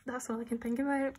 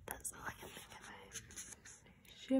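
First: Said in the usual way. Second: Hushed, slow, much softer; slow whisper. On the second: Real, not acted. Nervous fan repeating to herself what obsesses her, slow whisper. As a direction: drop to a drawn-out whisper.

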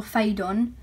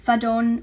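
First: "Fadon" with a long "fay" first syllable; alternative pronunciation. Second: "Fadon" with a short "fa" first syllable; unsure pronunciation. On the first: Vlogger offering another guess at a publisher's name, "Fadon" said fay-don. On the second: Vlogger guessing a publisher's name, unsure pronunciation of "Fadon" as fa-don. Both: Shown as a demonstration. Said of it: "I don't know how to say this".

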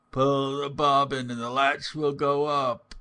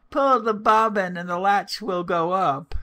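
First: Lightly disguised wolf, a little raised; wolf's softer voice. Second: High, loud grandmotherly call; old woman calling out. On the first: Wolf posing as grandmother, calling in a softer voice. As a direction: call out with the voice slightly softened and lifted. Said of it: "The wolf cried out in a softer voice". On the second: Old woman in bed calling to the door, high loud call. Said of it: "The good old woman, who was ill in bed, called out". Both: A narrator's reading.

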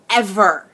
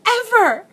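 First: "ever" set apart after a pause, at normal pitch; stress on ever. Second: "Ever" squealed far higher, falling at the end; overjoyed high squeak on "Ever"; high-pitched emphasis on Ever. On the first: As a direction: land "ever" firmly as its own word. Same word repeated for emphasis. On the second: Same word repeated, squealed higher. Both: Real, not acted.

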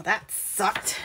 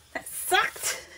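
First: Said in the usual way. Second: High, soft squeak of mock disappointment; squeaky repeat. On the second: Real, not acted. Crafter joking about her failed attempt, squeaky repeat. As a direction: squeak the words out as a joke. Repeats it playfully after failure.

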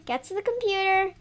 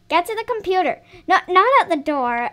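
First: Said in the usual way. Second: Insist, repeating the order with more force; mock stern mom repeating herself; firmer repeat. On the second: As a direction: Get punched, louder than the first take.

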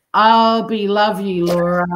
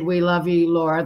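First: Stumbling over the words, I'll be love you; slurred misreading, I'll be love you, Laura; garbled reading. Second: Said in the usual way. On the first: Shown as a demonstration. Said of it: "that's not right". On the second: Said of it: "I said".

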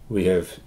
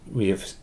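The two takes are said the same way.

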